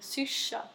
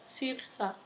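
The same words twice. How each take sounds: First: It is pronounced with a Stockholm accent. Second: It is pronounced with a Scanian accent. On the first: The speaker has picked this up from a friend. "jag har ju börjat ändra ord" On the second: This is how the speaker used to say it. "Istället för"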